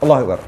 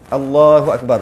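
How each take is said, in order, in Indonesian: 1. Vokal pada Allah sama sekali tidak dipanjangkan. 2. Vokal pada Allah dipanjangkan dua ketukan. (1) "kalau tak tak dimatkan, makruh. Langsung tak ada" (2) "Dua je. Tu sunat. Dua harakat"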